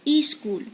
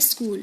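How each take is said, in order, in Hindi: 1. शब्द से पहले एक अतिरिक्त 'i' स्वर आता है। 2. शब्द सीधे व्यंजन-गुच्छ से शुरू होता है। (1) "एक और स्वर ले आए इसमें" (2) "जबकि क्या होता है?"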